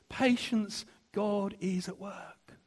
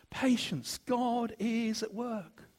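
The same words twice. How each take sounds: Both takes have the same delivery.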